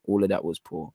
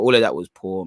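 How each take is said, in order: First: Quiet repeat. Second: Said in the usual way. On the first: Real, not acted. Fan muttering his verdict on Walker to himself, quietly. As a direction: lower and softer, muttered to himself.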